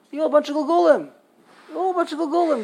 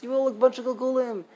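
First: Higher, louder, fast mocking rant; hammed-up preacher yelling at the sick. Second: Lightly imitating a preacher, barely changed; a touch of mockery; mild mock quote. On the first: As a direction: parody the preacher condemning the patients. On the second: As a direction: toss off the preacher's line with a hint of scorn. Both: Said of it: "very easy for them to say".

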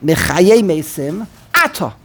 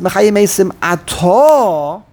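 First: "Atah" set apart and stressed AH-tah; front-stress "Atah" and come to a stop; stop sign on Atah. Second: "Atah" drawn out a-TAAH, left hanging upward; end-stressed Atah. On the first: Teacher showing the stop sign, front-stressed "Atah". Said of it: "There is a stop sign". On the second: Teacher showing the connected reading, "Atah" stressed late. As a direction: stretch the last syllable of "Atah". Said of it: "if the word Atah should be". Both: Shown as a demonstration.

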